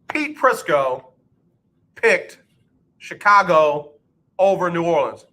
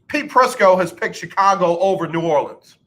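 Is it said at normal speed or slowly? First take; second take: slowly; normal speed. First: It is said slowly. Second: It is said at normal speed.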